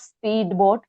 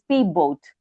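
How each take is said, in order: First: The d is pronounced separately before the b. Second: The d blends into the following b. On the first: The speaker calls it wrong. "not speedboat" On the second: The speaker calls it right. "It's P boat"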